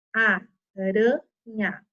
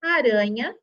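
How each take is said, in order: First: "aranha" drawn out very slowly as a-ra-nha; teacher spelling out "aranha" in syllables, slow; syllable split. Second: Said in the usual way. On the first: Shown as a demonstration. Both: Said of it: "cada R com a sua vogalzinha".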